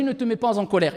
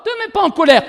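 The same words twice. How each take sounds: First: Low-key, softer advice; understated, soft word of advice; quiet quoted counsel. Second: "te mets pas en colère" pitched higher, emphatic; "te mets pas en colère" as a raised, insistent repeat; insistent repetition. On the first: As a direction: quote the counsel softly and evenly. First telling of the advice. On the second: Advice repeated once more, insistently. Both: Retold or imitated.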